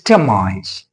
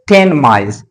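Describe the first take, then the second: First: Ten ends with an m sound before mice. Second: Ten ends with a clear n before mice. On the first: The speaker calls it right. "it's ten mice. ... assimilate it" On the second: The speaker calls it wrong. "don't say ten mice"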